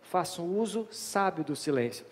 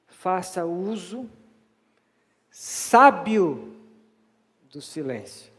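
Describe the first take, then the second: First: It is said at a normal, even pace. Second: It is said slowly with strong emphasis.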